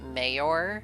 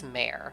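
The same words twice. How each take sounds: First: It does not sound like the word mare. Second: It sounds like the word mare. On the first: Some other speakers say it this way. "Some people pronounce it mayor" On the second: This is how the speaker was taught to say it. "for me, the way that I was taught, it's mayor. Similar to the horse"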